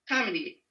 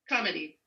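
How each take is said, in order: First: The stress is on the first syllable. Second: The same.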